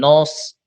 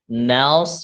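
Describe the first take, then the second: First: The vowel after n sounds like 'o'. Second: The vowel after n is an open 'a'. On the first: The speaker calls it wrong. "bukan nos" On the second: The speaker calls it right. "nas bukan nos"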